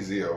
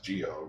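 First: The name begins with a z sound. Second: The name begins with a j sound. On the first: This is how the other person says the name. The speaker calls it wrong. "You say Zio" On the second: This is how the makers of the show say the name. The speaker calls it right. "where I'm pronouncing it as Geo, because that's how they pronounce it"

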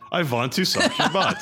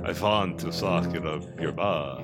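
First: It is said in a normal voice. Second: It is said in a put-on Dracula voice.

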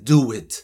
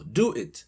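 First: The words are linked with a w-like glide. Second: The two words are said separately, without a glide. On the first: "cuando lo unes suena do it, como si estuviera una W" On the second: "Ese do it es do it, que es hazlo"

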